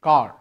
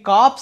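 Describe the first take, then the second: First: The word ends without any ps sound. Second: The word ends with an audible ps sound. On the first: It means a unit or troop. The speaker calls it right. "కార్ అనాలి" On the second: It sounds like the word for a dead body. The speaker calls it wrong. "ఇది కాప్స్ అనకూడదమ్మా"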